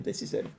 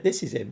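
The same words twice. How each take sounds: First: Breathless whisper under his breath. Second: Said in the usual way. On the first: Real, not acted. A player finds his lost signing and whispers to himself. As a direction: mutter it to yourself, barely voiced.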